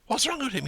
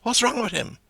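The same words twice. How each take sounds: First: High echoing question, falling; Doran's echo. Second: High, falling Dublin query; McCoy's question. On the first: Doran echoing McCoy in the pub, high falling tune. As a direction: throw the question back like an echo. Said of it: "And now Doran echoes it". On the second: McCoy asking after Paddy, high falling tune. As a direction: ask it like McCoy in the pub. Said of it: "we had McCoy saying". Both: Acted.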